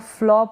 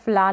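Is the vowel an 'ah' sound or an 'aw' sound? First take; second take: aw; ah. First: The vowel is a rounded 'aw' sound. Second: The vowel is an open 'ah' sound. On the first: The speaker calls it right. "इसको फ्लॉ पढ़ें" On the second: The speaker calls it wrong. "फ्ला नहीं पढ़ें"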